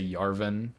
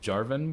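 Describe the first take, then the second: First: The name begins with a Y sound. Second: The name begins with a J sound. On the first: The speaker calls it wrong. "I have friends who say Yarvin. It's like that's so stupid" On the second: The speaker calls it right. "It's Jarvin"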